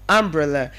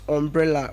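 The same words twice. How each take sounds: First: The first vowel is said like 'a'. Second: The first vowel is not said like 'a'. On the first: The speaker calls it right. "letter U giving us the sound A" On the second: The speaker calls it wrong. "not umbrella"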